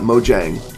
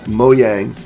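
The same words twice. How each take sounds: First: The middle consonant is a J sound. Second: The middle consonant is a Y sound. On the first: The speaker calls it wrong. "it's not Mojang" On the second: The speaker calls it right. "It's Mojang ... like M O Y A N G"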